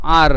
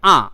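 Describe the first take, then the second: First: The letter name ends with a clear r sound. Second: The letter name ends without any r sound.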